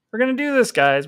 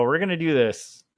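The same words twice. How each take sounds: First: Higher, pumped-up rallying cry; rally yourself like a coach; pep talk. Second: Said in the usual way. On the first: Acted.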